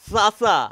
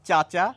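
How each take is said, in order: First: Each consonant is an 's' sound. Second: Each consonant is a 'ch' sound. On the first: This shows a particular region's local pronunciation. "আর এই বিন্দুওয়ালা চকে কিভাবে উচ্চারণ করি?" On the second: This is the usual standard pronunciation. "এগুলি কিভাবে উচ্চারণ করি আমরা প্রায় প্রত্যেকে?"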